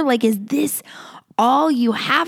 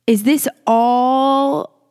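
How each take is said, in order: First: Hushed, breathless whispered question. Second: Drawn-out slow, aching question; slow pleading question. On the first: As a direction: whisper it like a secret doubt. Imagined Israelites questioning God. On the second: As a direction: stretch it out as if heartbroken. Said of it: "they're like". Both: Retold or imitated.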